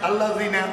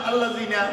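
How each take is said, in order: No difference in how they are said.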